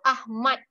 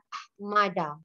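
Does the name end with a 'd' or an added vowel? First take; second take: d; added vowel. First: The name ends cleanly on the d sound. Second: An extra 'a' vowel follows the final d. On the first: The speaker calls it right. "So Ahmad only, not Ahmada" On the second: The speaker calls it wrong. "some of students, they say nama ayah saya Ahmada"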